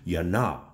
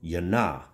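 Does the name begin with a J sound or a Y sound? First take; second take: Y sound; Y sound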